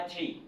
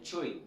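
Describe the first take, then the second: First: "tri" with a plain, unrounded French-style start; wrong pronunciation. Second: "tri" with a rounded "chr" sound; English pronunciation. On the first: Teacher shows learners what not to say, mistaken pronunciation. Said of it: "Ce n'est pas tri". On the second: Teacher corrects the opening syllable, English model pronunciation. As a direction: say "tri" like "chwri", lips rounded. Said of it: "c'est tri". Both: Shown as a demonstration.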